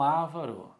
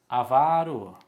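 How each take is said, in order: First: The stress is on the first syllable. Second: The stress is on the second syllable. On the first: The speaker calls it wrong. "e não ávaro" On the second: The speaker calls it right. "Ele é avaro"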